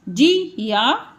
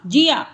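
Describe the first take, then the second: First: जी या drawn out slowly; slow split; slow syllables. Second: Said in the usual way. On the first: Shown as a demonstration. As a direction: sound out जी या. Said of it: "आ का sound भी आएगा इसमें".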